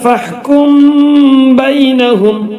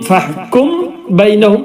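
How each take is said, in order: First: The m is hidden with a nasal hum. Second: The m is pronounced fully and clearly. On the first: The speaker calls it right. "ഇവിടെ ഇഖ്ഫാ ചെയ്യണം, മറച്ചു മണിക്കും" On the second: The speaker calls it wrong. "എന്ന് പറയരുത്"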